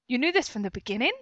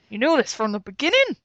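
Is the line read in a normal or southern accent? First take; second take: normal; southern. First: It is read in a normal, plain accent. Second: It is read in a put-on southern accent. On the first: The speaker calls it right. "I'll be more normal" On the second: The speaker calls it wrong. "southern accent? ... I think that must be what I was going for"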